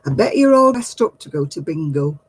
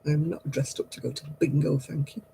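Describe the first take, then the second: First: A hint of a cheeky man on the bus; lightly voiced chat-up line, teasing; mild mock of the man's bingo remark; cheeky bus flirt. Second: Quiet, dry put-down; softer, unimpressed reply to the bingo jibe; real, dry dismissal of the bingo jibe; dry retort. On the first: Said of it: "He said". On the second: Real, not acted.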